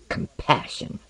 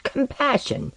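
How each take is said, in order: First: Low-voiced, nearly whispered echo of the word; stung echo. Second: High-pitched, disbelieving question; incredulous echo. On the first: Osden echoes Tomiko's word compassion, quietly stung. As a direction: say it under your breath. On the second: Acted. Osden challenges Tomiko on compassion, incredulous. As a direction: throw the word back at her, pitched high.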